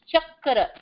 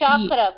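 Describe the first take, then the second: First: The word is said with its original pronunciation. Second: The word is said with an American pronunciation. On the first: The speaker calls it right. "The word is chakra" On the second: The speaker calls it wrong. "in America, they call them chakras... They say chakra, but that's not right"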